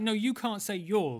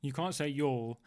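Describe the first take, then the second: First: "you" stressed, higher and drawn out; slower retort, leaning hard on "you". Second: Said in the usual way. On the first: Retold or imitated. Podcaster retelling his comeback to a fellow Ghostbuster, stress on "you". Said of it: "I was like". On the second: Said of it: "And he went".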